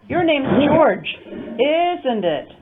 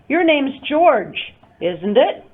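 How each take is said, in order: First: The voice falls at the end. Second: The voice rises at the end.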